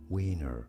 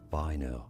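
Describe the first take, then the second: First: The name is pronounced the English way. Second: The name is pronounced the German way. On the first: "But in English, this name is pronounced as" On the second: "For reference in German, this is said as"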